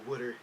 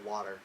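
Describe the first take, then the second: First: It is said in an East Coast accent. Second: It is said in a plain, neutral accent. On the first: "East Coast thing where you go water" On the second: "instead of water"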